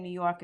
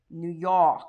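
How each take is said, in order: First: Said in the usual way. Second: "New York" as a local says it, Noo Yawk; New York accent. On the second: Shown as a demonstration. Host reading a viewer's question to comic, thick New York accent. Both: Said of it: "you don't have an accent".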